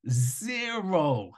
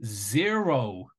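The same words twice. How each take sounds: First: Zero, repeated higher with a falling tune; emphatic repeat. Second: Said in the usual way. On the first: Real, not acted. Hammering the point home to viewers, emphatic Zero. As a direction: lift Zero up and let it drop.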